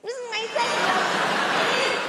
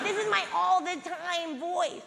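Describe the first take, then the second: First: Higher, louder mock sex voice. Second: Said in the usual way. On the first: Shown as a demonstration. Comic showing off her sex voice, higher and giggly. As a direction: lift it high with a laugh.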